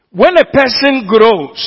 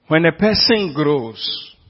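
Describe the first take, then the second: First: Higher, louder and slow, each word leaned on; emphatic preaching. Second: Said in the usual way. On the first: Shown as a demonstration. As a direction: drive "when a person grows" home from the pulpit.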